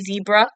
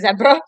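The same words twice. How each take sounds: First: The word is said in an American accent. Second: The word is said in a British accent. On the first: "I'm not American, by the way, so I'm not going to say zebra" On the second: "I'm English, so I'm going to say it's a zebra"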